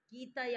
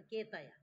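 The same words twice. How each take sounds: First: कीतय said with a long ई, the wrong way; student says कीतय with ई instead of ए; wrong vowel. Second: केतय with a clear ए sound; teacher corrects the student, केतय with ए; corrected vowel. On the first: Real, not acted. कीतय mispronounced. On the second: Shown as a demonstration. केतय said correctly. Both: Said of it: "केतय बोलो ना".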